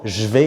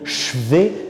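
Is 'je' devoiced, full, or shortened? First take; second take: shortened; devoiced. First: The 'je' vowel is dropped but stays voiced. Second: The 'je' is devoiced to a 'ch' sound. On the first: The speaker calls it right. "avec le e muet qui parfois est coupé" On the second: The speaker calls it wrong. "est impossible"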